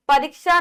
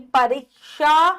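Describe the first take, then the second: First: परीक्षा as 'pa-rik-sha'; short i. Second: परीक्षा as a slow, loud 'pa-reek-shaa'; slow, louder परीक्षा with held ee; long ee. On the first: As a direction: clip the 'ri' in परीक्षा. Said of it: "परीक्षा नहीं". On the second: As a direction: stretch परीक्षा out by syllables. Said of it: "बड़ी". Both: Shown as a demonstration.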